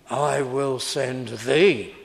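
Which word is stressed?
thee. The stress falls on the word thee. The one being sent is the important part. The speaker calls it wrong. "Some people read it wrongly"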